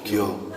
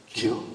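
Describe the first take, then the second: First: A single Chungcheong "기어." settled with a falling tune; one-word Chungcheong reply, lightly imitated; terse Chungcheong answer. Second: A single clipped Chungcheong "기어?" asked with a rise; one-word Chungcheong query, light imitation; terse Chungcheong question. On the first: Singer answering the woman in kind, one-word Chungcheong reply. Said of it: "본인도 그렇게 대답했대, 한마디로". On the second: Old Chungcheong woman asking the singer, one-word Chungcheong question. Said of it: "한마디로 끝내버리더라는 거예요".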